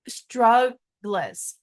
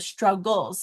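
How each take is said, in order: First: The ending is said as 'gliz', L before vowel. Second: The ending is said as 'gulz', vowel before L. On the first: It helps to remember the spelling. The speaker calls it wrong. "that's not really how we pronounce it, but it's how I say it when I spell it" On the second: It is the normal everyday pronunciation. The speaker calls it right. "That's how we pronounce it"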